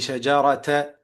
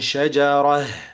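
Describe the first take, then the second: First: The word ends with a t and a vowel. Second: The word ends with a soft h sound. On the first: The speaker calls it wrong. "You don't say shajarata" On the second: The speaker calls it right. "then you stop on shajarah"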